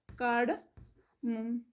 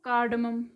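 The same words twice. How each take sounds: First: Cardamom stretched out very slowly, softer; slow demo pronunciation. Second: Said in the usual way. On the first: Shown as a demonstration. Teacher slowing cardamom right down so students can copy it. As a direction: draw out each syllable of cardamom for learners. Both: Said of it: "cardamom कैसे pronounce करते हैं इसे".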